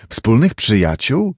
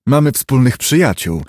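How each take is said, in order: First: Lightly hoarse questioning echo; hint of hoarseness, rising at the end. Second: Said in the usual way. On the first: A narrator's reading. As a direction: echo it as a question, a touch husky. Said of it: "rzekł Hyde ochrypłym głosem".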